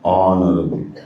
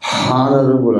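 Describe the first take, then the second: First: The word starts directly with a vowel sound. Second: The word starts with an audible h sound. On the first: The speaker calls it right. "అది H silent, అది ఆనరబుల్ అనాలి" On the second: The speaker calls it wrong. "Never say హానర్ హానరబుల్ అనొద్దు"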